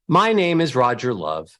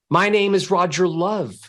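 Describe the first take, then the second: First: The melody descends, falling at the end. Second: The melody ascends, rising at the end. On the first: The speaker sounds sad. The speaker calls it wrong. "Every time you go down, which is called a descending melody, every time you go down, you sound sad" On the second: The speaker sounds happy. The speaker calls it right. "ascending melodies, going from low to high, would make you sound happy"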